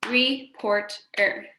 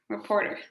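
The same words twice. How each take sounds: First: "reporter" in three slow beats, re - port - er; "reporter" slowly chopped, re, port, er; split into syllables. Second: Said in the usual way. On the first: Shown as a demonstration. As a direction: clap out "reporter" with a gap after each syllable. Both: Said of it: "Three syllables there".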